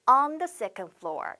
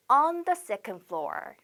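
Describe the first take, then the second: First: Same slow model again; slow repeat for learners. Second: Drawn out so students can copy; slow model phrase. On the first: Teacher repeating the phrase for students, slowly. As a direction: repeat it slowly for them to echo. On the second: Teacher modelling the phrase for students, slowly. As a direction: say it slowly and clearly. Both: Shown as a demonstration. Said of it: "이렇게 on 쓴다는 거 꼭 기억하셔야 됩니다".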